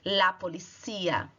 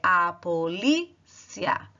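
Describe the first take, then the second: First: The stress is on the third syllable. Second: The stress is on the second syllable. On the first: This is the Spanish word. "A sílaba tônica está no cia" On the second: This is the Portuguese word. "em português você fala"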